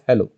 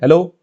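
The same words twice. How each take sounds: First: The word is said more quietly and weakly. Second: The word is said at normal full volume. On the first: The circuit has reduced the input instead of amplifying it. "it was heard in a even lesser manner" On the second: This is the original voice going into the circuit. "I said hello"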